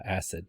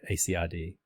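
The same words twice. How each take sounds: First: "acid" pronounced as one ordinary word. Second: A C I D said as four letter names; spelled out. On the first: Instructor giving another acronym, "acid" said as a word. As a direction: say "acid" as a word, not as letters. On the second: Instructor showing what you don't say, A C I D spelled out. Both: Shown as a demonstration. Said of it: "You don't say A C I D".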